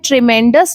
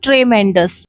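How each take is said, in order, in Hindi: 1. पहले अक्षर में छोटा 'i' स्वर है। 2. पहले अक्षर में 'e' स्वर है। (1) "इसकी करेक्ट प्रोनाउंसिएशन होती है ट्रिमेंडस" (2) "ना कि ट्रेमेंडस"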